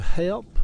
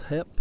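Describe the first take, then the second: First: Said in the usual way. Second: "hep", help without its L sound; Cabbagetown-style "hep" for help; dialect "hep". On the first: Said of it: "where the word help oftentimes comes out". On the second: Shown as a demonstration. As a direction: say "hep" with the L dropped. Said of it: "oftentimes comes out as hep".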